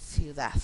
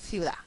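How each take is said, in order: First: The final d is an interdental th sound. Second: The final d is not pronounced at all. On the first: "vamos a pronunciar" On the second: "a veces simplemente vamos a decir"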